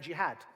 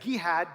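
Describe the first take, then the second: First: The name starts with a j sound. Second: The name starts with a hard g sound.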